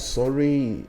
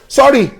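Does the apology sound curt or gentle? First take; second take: gentle; curt. First: The word sounds soft and sincere. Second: The word sounds stiff and abrupt. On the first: The apology is meant to pacify. The speaker calls it right. "you can say things nicely" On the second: The apology feels like a second insult. The speaker calls it wrong. "you don't say sorry in a rash way"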